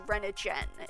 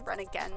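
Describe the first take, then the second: First: The G is said soft, like a J. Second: The G is said hard, like in go. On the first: The speaker calls it right. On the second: The speaker calls it wrong.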